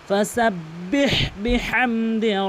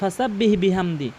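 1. h ধ্বনিটি গলার গভীর থেকে আসে। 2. h ধ্বনিটি হালকা ও সরল। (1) "বড় হা হলকের মাঝখান থেকে" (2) "এটি সম্পূর্ণ ভুল"

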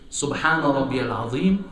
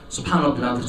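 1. Das wird langsam und ruhig gesagt. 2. Das wird hastig und sehr schnell gesagt. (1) "dann sagt man das ruhig" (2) "Manche sagen so"

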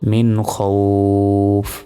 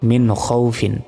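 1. স্বরটি টেনে পড়তে হবে, সাকিনে থেমে শেষ হবে। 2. স্বরটি ছোট, শেষটা পূর্ণভাবে পড়তে হবে। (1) "এখানে 1 হতে 3 আলিপ পরিমাণ টেনে পড়তে পারবো" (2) "যদি না থামি তাহলে কিন্তু কোনো টান হবে না"

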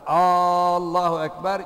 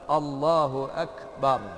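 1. Başlangıç soru gibi uzatılmış. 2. Başlangıç kısa, düz bir cümle gibi. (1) "Allahu Ekber yanlış. ... Allah büyük mü diye sormak çünkü" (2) "Böyle söyleyecek"

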